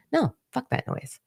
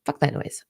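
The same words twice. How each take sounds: First: Sharp high-pitched brush-off; dismissive. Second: Said in the usual way. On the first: Real, not acted. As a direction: toss it away with disdain. Firmly rejecting her old habits.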